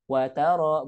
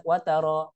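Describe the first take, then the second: First: Wa, then taro drawn out; separated words. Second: Wataro as one short word; run together. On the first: Teacher showing the correct reading, separated words. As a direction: say "wataro" as two words. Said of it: "beda kan?". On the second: Teacher showing what not to read, run together. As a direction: say "wataro" with wa glued on. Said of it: "bukan wataro". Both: Shown as a demonstration.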